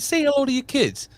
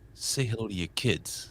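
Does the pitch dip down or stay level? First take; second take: stays level; dips down. First: The pitch stays level and light throughout. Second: The pitch dips down low on the phrase. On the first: It comes across as a joke. "hey, he's funny" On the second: It comes across as a veiled threat. "that dip in inflection"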